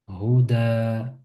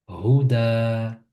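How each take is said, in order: The two takes are said the same way.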